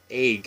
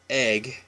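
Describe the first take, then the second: First: It uses the local Washington State vowel. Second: It uses the common general American vowel. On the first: "we pronounce it egg" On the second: "Most Americans pronounce egg"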